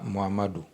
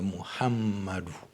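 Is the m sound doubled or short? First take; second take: short; doubled. First: The m sound is short, not doubled. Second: The m sound is held and doubled. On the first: The speaker calls it wrong. "c'est pas Muhammadou" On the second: The speaker calls it right. "c'est Muhammadou. Donc la lettre mime porte shadda, donc c'est doublé"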